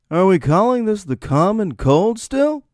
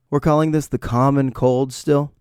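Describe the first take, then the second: First: High, swooping, outraged question; exaggerated incredulity. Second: Slightly raised, doubtful question; questioning disbelief. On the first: Sick host whines about the name common cold, high incredulity. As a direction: repeat it in hammed-up disbelief, pitch soaring. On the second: Acted. Sick host questions the name common cold, mild disbelief. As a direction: ask it sceptically, lifting a little. Rant, first take of question.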